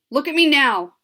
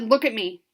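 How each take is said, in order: First: Loud, stern, a notch higher; mom's voice that means business; death voice. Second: Stern command. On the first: Mother ordering her daughter to look at her, loud stern command. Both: A narrator's reading. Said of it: "This is the death voice".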